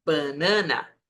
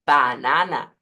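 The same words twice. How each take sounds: First: "banana" with nasalized Portuguese A's; the wrong nasal "banana". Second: "banana" with every A open and oral; Spanish open a. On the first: Teacher showing the nasal "banana" to avoid. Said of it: "no banana". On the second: Teacher modelling the Spanish "banana". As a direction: say "banana" with clear open vowels. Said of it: "Igual decimos banana". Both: Shown as a demonstration.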